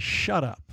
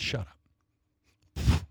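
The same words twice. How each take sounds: First: Said in the usual way. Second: "Shut up" breathed in a low whisper; whispered command. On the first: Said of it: "got up and said". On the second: Retold or imitated. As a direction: hush the storm with a whispered "Shut up". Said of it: "He said".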